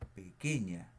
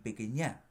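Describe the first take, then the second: First: The stress falls on the second-to-last syllable. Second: The stress falls on a different syllable. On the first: The speaker calls it right. "Cargo la voz aquí. Digo pequeña" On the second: The speaker calls it wrong. "ni pequeña"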